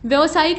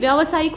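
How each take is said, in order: First: The vowel after vy is a short a. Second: The vowel after vy is a long aa. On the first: The speaker calls it wrong. "नहीं" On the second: The speaker calls it right. "आ की मात्रा लगती है"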